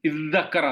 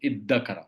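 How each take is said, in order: First: The doubled consonant is a 'dh' sound. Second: The doubled consonant is a plain 'd' sound. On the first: The speaker calls it wrong. "ആ ദാലും തായും കൂടി ചേർത്തിട്ട് ഒറ്റ അക്ഷരമായിട്ട് പറയും" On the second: The speaker calls it right. "ആ ദാലിനെ ദാലാക്കി മാറ്റും"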